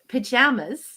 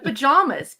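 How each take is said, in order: First: It is pronounced with a Canadian vowel. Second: It is pronounced with an American vowel. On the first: "incredible difficulty saying pajamas" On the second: "instead of pajamas because of all of my American friends"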